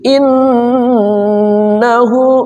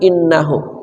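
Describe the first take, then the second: First: The double n is held with a nasal hum. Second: The double n is short with no nasal hum. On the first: The speaker calls it right. "nun musyaddadah tajibul gunnah ... jadi mesti" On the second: The speaker calls it wrong. "enggak boleh"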